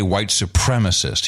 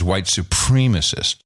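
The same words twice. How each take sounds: First: The second syllable has a short 'eh' vowel. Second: The second syllable has a long 'ee' vowel. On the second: "you hear the supreme word"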